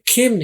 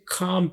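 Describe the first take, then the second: First: The vowel is an 'eh' sound. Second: The vowel is an open 'ah' sound. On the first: The speaker calls it wrong. "खेम नहीं पढ़ेंगे" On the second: The speaker calls it right. "इसे खाम पढ़ेंगे"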